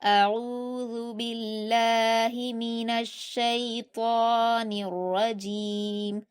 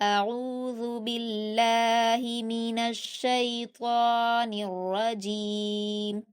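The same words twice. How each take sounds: No difference in how they are said.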